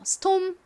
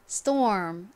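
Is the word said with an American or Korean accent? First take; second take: Korean; American. First: It is said as Korean-style syllables without an R. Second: It is said with an American R before the M. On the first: "한국식으로는 이 R의 리을 받침을 빼고 M의 미음 받침을 넣어서" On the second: "미국식 원어 발음으로 하면 storm 이렇게 발음이 되죠"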